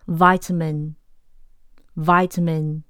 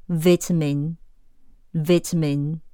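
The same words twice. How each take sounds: First: Vitamin said "VY-ta-min" with a long i; vitamin the American way, slowly; American pronunciation. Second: Vitamin said "VIT-a-min" with a short i; vitamin the British way, slowly; British pronunciation. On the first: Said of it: "美式vitamin". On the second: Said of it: "英式". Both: Shown as a demonstration.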